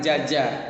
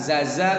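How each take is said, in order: First: Both syllables start with a j sound. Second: Both syllables start with a z sound. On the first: "bukan jaja" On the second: "bukan zaza"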